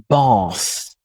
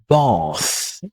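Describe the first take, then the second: The two takes are said the same way.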